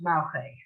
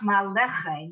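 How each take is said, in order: First: The middle vowel is dropped entirely. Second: The middle vowel is a full eh. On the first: "when you're going fast like the Israelis do" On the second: "but it's not maleche"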